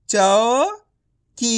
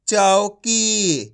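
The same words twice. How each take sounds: First: चौकी stretched out slowly, sound by sound. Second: Said in the usual way. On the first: Shown as a demonstration. Teacher sounds out a word for young readers, slowly. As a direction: spell out चौकी slowly, each letter in turn. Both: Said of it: "एक एक अक्षर का उच्चारण करके".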